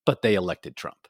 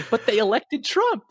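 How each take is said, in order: First: Low, understated deadpan; dead serious. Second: Imitating the child in a raised voice; high-pitched mimicry. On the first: Retold or imitated. Young Dutch daughter answering her mom, low and dead serious. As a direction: say it low, not kidding around. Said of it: "dead in the eyes, and was not kidding around". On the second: Retelling the Dutch child's comeback to her mom, high-pitched imitation. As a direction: pitch it way up, lightly mocking. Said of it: "she's just like".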